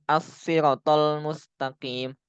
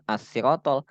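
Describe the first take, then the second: First: "As-siratal" with RA drawn out; ra dibaca panjang. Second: "as-siratal" with a short, quick RA; no lengthening in "as-siratal"; ra dibaca pendek. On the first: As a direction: stretch the ra in "As-siratal", slowly. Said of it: "Maka dibaca panjang". ("As-siratal" dengan ra panjang) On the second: ("as-siratal" dengan ra pendek) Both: Shown as a demonstration.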